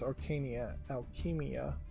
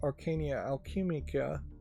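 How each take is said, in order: First: The second word ends without a 'k' sound. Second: The second word ends with a 'ka' sound. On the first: The speaker calls it right. "no C at the end" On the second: The speaker calls it wrong. "I mispronounced that too"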